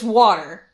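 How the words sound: It is said in a general American accent.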